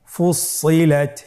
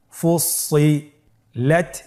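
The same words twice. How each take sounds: First: Said in the usual way. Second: ফুসসিলাত said slowly, doubled স held; slow careful reading. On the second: Shown as a demonstration. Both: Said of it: "আমার সাথে বলুন".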